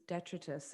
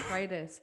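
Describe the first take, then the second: First: The word has a French-influenced pronunciation. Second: The word has a standard English pronunciation. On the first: The speaker calls it wrong. "the weird accent of me knowing it as a French word" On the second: The speaker calls it right. "pronounced in English"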